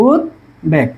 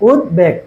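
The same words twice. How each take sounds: First: উদ্বেগ split as "ud... beg", lower; pause after "ud". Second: উদ্বেগ lower, as "ud-beg" with a short catch; joined, slight break. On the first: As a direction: break উদ্বেগ in two, stopping after "ud". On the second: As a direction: say উদ্বেগ in one go, barely pausing after "ud". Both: Shown as a demonstration. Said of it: "উদের পরে একটু থামছি".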